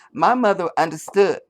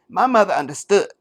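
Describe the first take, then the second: First: A light take on her reading, a bit higher, no swallow; half-hearted Harris impression, clean start; mock Kamala Harris. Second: A hammed-up Harris who swallows before speaking; mock Harris with a swallow. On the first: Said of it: "I'm sure she said". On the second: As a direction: gulp audibly, then a slightly higher, solemn line. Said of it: "And she'd do a little swallow first".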